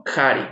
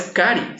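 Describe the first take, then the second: First: "cari" with c like Spanish j, "jari"; "cari" starting on a raspy j; "cari" with a j sound, not k; correct j-like c. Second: "cari" with a hard k, "kari"; "cari" said with a plain k; "cari" starting on a k sound; wrong hard c. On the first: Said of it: "esta C suena similar a la letra J". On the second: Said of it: "no es cari". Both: Shown as a demonstration.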